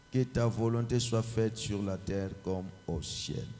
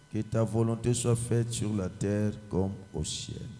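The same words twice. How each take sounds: No difference in how they are said.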